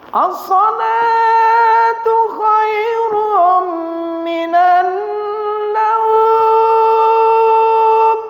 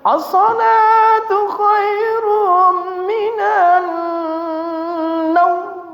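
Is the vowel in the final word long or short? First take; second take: long; short. First: The vowel in the last word is held long. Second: The vowel in the last word is kept short. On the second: "satu naumnya pendek"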